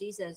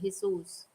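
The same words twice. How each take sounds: First: The name is said with an English pronunciation. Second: The name is said with a Spanish pronunciation. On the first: The speaker calls it wrong. "we don't say it as Jesus" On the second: The speaker calls it right. "We we say it as the Spanish way"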